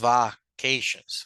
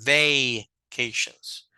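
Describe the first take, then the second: First: The first vowel is a short 'a' sound. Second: The first vowel is an 'ay' sound. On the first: The speaker calls it wrong. "no es la A de Apple, no es la corta, no es vacations" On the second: The speaker calls it right. "Sino es vacations, como la de paper"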